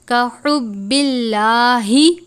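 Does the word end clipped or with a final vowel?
final vowel. The word ends with a full final vowel. The reader continues without stopping. "रवानी से पढ़ें यानी वक्फ नहीं करते"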